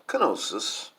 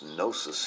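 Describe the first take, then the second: First: The word begins with a K sound. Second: The word begins with an N sound. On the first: This is how it is said in the UK. "It's pronounced Kenosis in uh, like in the U K" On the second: This is how it is said in the United States. "it's pronounced Gnosis here in the United States"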